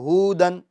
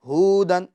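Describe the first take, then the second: First: The first vowel is drawn out long. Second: The same.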